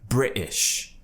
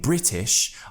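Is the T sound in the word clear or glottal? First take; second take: glottal; clear. First: The T is cut off in the throat. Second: The T is fully pronounced. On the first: "we do have something in English called the glottal T" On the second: "instead of saying British"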